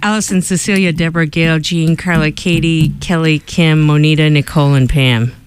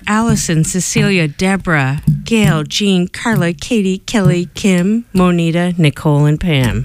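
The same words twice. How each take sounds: First: The names are read at a faster pace. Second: The names are read at a normal pace.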